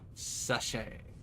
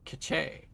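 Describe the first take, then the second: First: The word begins with an S sound. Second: The word begins with a K sound.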